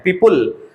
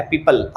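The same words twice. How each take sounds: First: पीपुल with an "ul" ending; wrong पीपुल, rounded u before the l; mispronounced PEOPLE. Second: पीपल with an unrounded "al" ending; पीपल ending in "uhl", not "ool"; correct PEOPLE pronunciation. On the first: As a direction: say पीपुल with a "pool"-like second syllable. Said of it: "उल कह के बोल देते हैं". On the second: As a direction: say पीपल with a neutral schwa before the l. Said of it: "अल की तरह से sound आएगा". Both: Shown as a demonstration.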